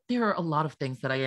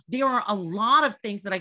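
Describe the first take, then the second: First: The voice is relaxed and natural. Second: The voice is forced, throaty and nasal. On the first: The speaker calls it right. "you have to sound natural" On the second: The speaker calls it wrong. "that's like too throaty, too nosy, too everything, right? It's too forced"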